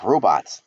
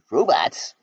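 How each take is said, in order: First: Said in the usual way. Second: Robots? asked higher in disbelief; surprised echo. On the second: Acted. A friend hears robots called friends, startled question. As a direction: throw the word Robots? back, startled.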